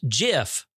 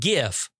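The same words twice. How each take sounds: First: The word starts with a J sound. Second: The word starts with a hard G sound. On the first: The speaker calls it right. "it is pronounced GIF, just like the peanut butter" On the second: The speaker calls it wrong. "not GIF"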